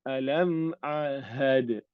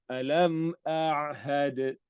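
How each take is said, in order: No difference in how they are said.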